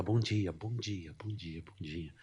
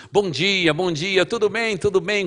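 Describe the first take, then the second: First: Soft, timid good mornings; quiet greeting. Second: High, loud, beaming good mornings; loud cheerful greeting. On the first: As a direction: greet softly, not wanting to be noticed. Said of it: "Não aumenta a voz". (bom dia baixinho, tímido) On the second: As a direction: greet the whole building loudly and happily. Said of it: "Então fala alto, mas fala coisa boa". (bom dia alto e alegre) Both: Retold or imitated.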